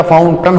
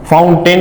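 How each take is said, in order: First: फाउंटन ending in a neutral "टन"; correct "tan" ending. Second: फाउंटेन ending in a full "टेन"; wrong "ten" ending. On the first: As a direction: say फाउंटन with a schwa in the last syllable. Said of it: "फाउंटन होता है". (फाउंटन के अंत में "टेन" नहीं, "टन" बोलें) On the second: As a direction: say फाउंटेन with a clear "e" in the last syllable. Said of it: "फाउंटेन नहीं होता". (फाउंटेन के अंत में साफ़ "टेन" बोलें) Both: Shown as a demonstration.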